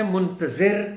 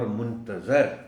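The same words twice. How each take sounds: First: منتظر with short i, muntazir; raised, loud منتظر ending in -zir; muntazir, the one waiting. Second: منتظر with short a, muntazar; slow منتظر ending in -zar; muntazar, the one awaited. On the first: Teacher introduces the word pair, منتظر said clearly as muntazir. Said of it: "انتظار کرنے والا". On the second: Teacher gives the contrasting word, منتظر said slowly as muntazar. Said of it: "جس کا انتظار کیا جا رہا ہو". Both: Shown as a demonstration.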